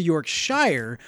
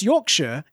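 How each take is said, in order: First: "Yorkshire" as york-SHIRE, long i; spelled-out pronunciation. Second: "Yorkshire" as YORK-shuh, weak ending; British pronunciation. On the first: Defending his way, "Yorkshire" said like york-SHIRE. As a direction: give "Yorkshire" its full "shire" ending. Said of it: "as opposed to Yorkshire". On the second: Disputing the correction, "Yorkshire" as YORK-shuh. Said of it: "if it's Yorkshire as opposed to". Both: Shown as a demonstration.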